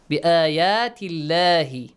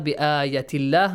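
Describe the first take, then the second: First: The marked vowel is held long. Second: The marked vowel is said short. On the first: The speaker calls it right. "There is a baby alif on the top" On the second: The speaker calls it wrong. "Make sure it's not بآيات الله. No"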